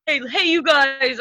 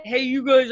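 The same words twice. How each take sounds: First: Slower, higher playful "hey, hey, you guys"; [name]'s little voice. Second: A hint of a playful little voice on "hey, you guys"; [name]'s little voice. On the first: Retold or imitated. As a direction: drag out a teasing greeting. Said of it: "In your little voice that you do". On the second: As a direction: lightly tease like a friend calling out. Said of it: "in [name]'s little voice".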